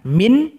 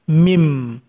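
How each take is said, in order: First: The word ends with an n sound. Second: The word ends with an m sound. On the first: "Yang awalnya bacaannya min" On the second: "bunyinya condong ke huruf mim"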